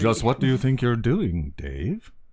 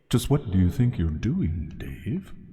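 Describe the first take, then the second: First: The voice sounds dry with no echo. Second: The voice sounds echoey with added reverb. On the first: "I think that needs reverb" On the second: "Turn off the reverb before it gets annoying"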